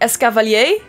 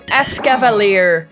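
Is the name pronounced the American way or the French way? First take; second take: French; American. First: It is pronounced with a French-sounding accent. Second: It is pronounced with an American English accent. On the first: "but I would say Escavalier, because it's French" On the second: "is how Americans would say it"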